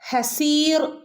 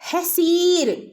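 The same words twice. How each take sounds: First: The final r sound is heavy and full. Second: The final r sound is very light. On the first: The speaker calls it wrong. "ഹസീർ എന്ന് ഓതരുത് കേട്ടോ ആരും" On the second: The speaker calls it right. "റോയിനെ വളരെ ലൈറ്റ് ആക്കിക്കൊണ്ടാണ് അവിടെ നമ്മൾ ഓതേണ്ടത്"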